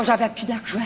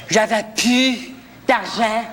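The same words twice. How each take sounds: First: Said in the usual way. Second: "J'avais plus d'argent" slowly, with a pause before "d'argent"; slow emphatic repeat. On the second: Acted. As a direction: stretch "plus", then set "d'argent" apart. (« J'avais plus d'argent » lent et appuyé, avec une pause)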